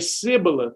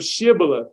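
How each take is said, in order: First: The word begins with a plain s sound. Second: The word begins with an sh sound. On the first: The speaker is an outsider with another dialect. The speaker calls it wrong. "They would say Sibboleth instead of Shibboleth because with their dialect, they couldn't pronounce it" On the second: The speaker belongs to the group. The speaker calls it right. "instead of Shibboleth"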